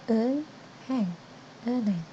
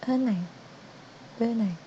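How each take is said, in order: Both takes have the same delivery.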